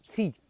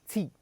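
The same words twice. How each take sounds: Both takes have the same delivery.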